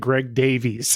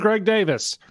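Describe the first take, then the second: First: The surname does not sound like Davis. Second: The surname sounds exactly like Davis. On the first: This is how everyone else says it. "everyone else ... all say Greg Davies" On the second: This is how the person with that name says it. "he says it just like Ray Davis"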